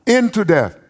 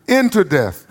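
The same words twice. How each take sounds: The two takes are said the same way.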